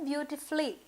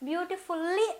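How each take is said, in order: First: The u in the ending is dropped. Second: The u in the ending is fully pronounced. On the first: The speaker calls it right. "అని అనడానికి ప్రయత్నాన్ని మనము చేయాలి" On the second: The speaker calls it wrong. "బ్యూటిఫుల్లీ అని మనము అనకూడదు"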